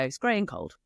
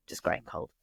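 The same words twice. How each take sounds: First: Said in the usual way. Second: Grey and cold breathed low and unvoiced; a bleak, hushed aside; gloomy whisper. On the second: Shown as a demonstration. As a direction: whisper it, dreary and deflated.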